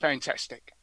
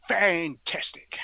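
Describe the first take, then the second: First: Said in the usual way. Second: Very slow, whispery savouring; drawn-out relish. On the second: Acted. Savouring Christmas chocolate oranges, FANTASTIC drawn out in a whisper. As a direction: stretch both halves of FANTASTIC in a husky whisper.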